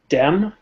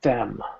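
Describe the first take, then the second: First: It starts with a plain d sound. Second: It starts with a slow th sound. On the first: The speaker calls it wrong. "there's no blockage of air" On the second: The speaker calls it right. "You have to block the air even if it's just for a fraction of a second. So let's go slower"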